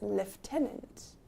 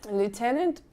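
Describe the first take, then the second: First: It is said the British way, with an f. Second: It is said with an American pronunciation. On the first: "in British English, it's lieutenant. ... I don't know where the F comes from" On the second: "if you are using the American English"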